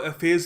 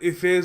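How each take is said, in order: First: The first vowel sounds like 'eh'. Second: The first vowel sounds like 'ih'. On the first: A less common pronunciation used in some places. "कुछ जगह इसको एफेस भी कहते हैं" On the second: The more widely used pronunciation. "ज़्यादा famous pronunciation"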